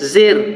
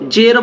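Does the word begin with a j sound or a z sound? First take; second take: z sound; j sound. First: It begins with a z sound. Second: It begins with a j sound. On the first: The speaker calls it right. "বলতে হবে জা দিয়ে জের" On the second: The speaker calls it wrong. "জের বলা যাবে না"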